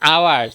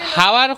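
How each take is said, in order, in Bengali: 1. শব্দটি একটি স্বরধ্বনি দিয়ে শুরু হয়। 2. শব্দটি h-এর ধ্বনি দিয়ে শুরু হয়। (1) "আওয়ার কয় ... এইচটা সাইলেন্ট" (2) "হাওয়ার কয় না"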